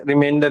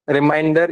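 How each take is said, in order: First: Remainder with an "e" vowel, "ri-MEN-der"; "men" pronunciation. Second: Reminder with an "ai" vowel, "ri-MINE-der"; "mind" pronunciation. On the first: Teacher contrasts two words for students, "men" in remainder. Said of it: "remainder is different". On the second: Teacher contrasts two words for students, "mind" in Reminder. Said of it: "Reminder is different". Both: Shown as a demonstration.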